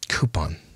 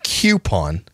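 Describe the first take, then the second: First: The word begins with a plain 'coo' sound. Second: The word begins with a 'kyoo' sound. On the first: The speaker calls it right. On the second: The speaker calls it wrong. "Not Q"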